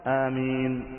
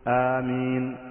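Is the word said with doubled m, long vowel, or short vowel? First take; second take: short vowel; short vowel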